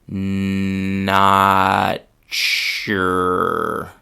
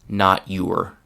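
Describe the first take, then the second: First: The t and y merge into a ch sound. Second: The t and y are pronounced separately. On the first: "the chewing gum part of the sentence with a few different pronunciations" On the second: "the classroom pronunciation"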